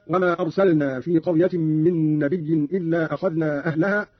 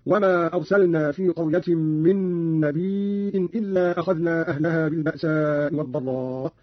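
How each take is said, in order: First: Said in the usual way. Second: "نبي" said nabii', long i ending in a glottal stop; hamza on nabi. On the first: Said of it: "قرأ قالون بهمز الياء". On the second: Shown as a demonstration. Teacher showing Qalun's reading, "نبي" with long i and hamza. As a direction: slowly stretch "نبي" and close on hamza: nabii-in. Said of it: "قرأ قالون بهمز الياء، هكذا".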